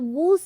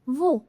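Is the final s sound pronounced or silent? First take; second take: pronounced; silent. First: The final s sound is pronounced. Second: The final s sound is silent. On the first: The speaker calls it wrong. "तो वूस नहीं बनेगा" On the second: The speaker calls it right. "इसमें हमारा जो एस है इसको हम हट नहीं बोलेंगे"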